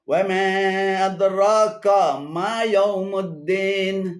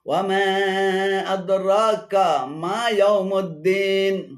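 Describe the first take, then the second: The two takes are said the same way.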